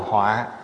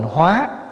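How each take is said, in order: First: The syllable is said on a heavy glottal tone. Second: The syllable is said on a rising tone. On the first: It means disaster. "nó thành dấu nặng ở dưới là họa" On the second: It means to transform. "nếu bỏ dấu sắc vô là thành hóa"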